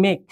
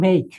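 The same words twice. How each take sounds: First: Said in the usual way. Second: মেক said with a clear long ei glide, not a flat e; correct English make. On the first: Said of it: "কিন্তু এটার উচ্চারণ হচ্ছে মেক". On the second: Shown as a demonstration. Teacher showing students the right মেক, glided clearly. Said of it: "এটার উচ্চারণ হচ্ছে মেক".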